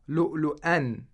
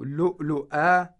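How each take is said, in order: First: The word ends with an n sound. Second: The word ends on a long a vowel. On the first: The reader continues without stopping. "if we want to read in continuum" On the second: The reader stops at this word. "if we want to stop on this word"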